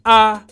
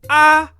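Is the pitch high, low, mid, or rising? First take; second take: mid; high. First: The pitch stays flat in the middle. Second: The pitch is high and level. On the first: "the mid tone, when your the pitch of your voice remains flat" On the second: "The high tone, when you raise the pitch of your voice"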